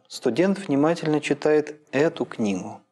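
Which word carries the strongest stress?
эту. The main stress falls on the word эту. "когда логическое ударение начинает переползать с конца фразы"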